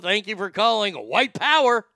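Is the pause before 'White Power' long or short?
short. Only a short pause comes before 'White Power'. The speaker calls it wrong. "See, I'm not pausing long enough"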